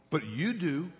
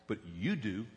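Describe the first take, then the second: First: Said in the usual way. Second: You said low and quiet, drawn in; stress on you. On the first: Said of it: "repeated emphasis". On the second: Shown as a demonstration. Pastor pressing the congregation, hushed stress on you. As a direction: lean hard on you, hushed. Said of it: "quiet pointed emphasis".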